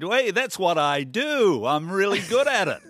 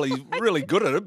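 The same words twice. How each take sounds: First: Terrible Trump impression. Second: Said in the usual way. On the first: Host quoting the president on politics and sport, terrible impression. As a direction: badly imitate a boastful president, loud and stretched out. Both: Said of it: "That was a terrible impression".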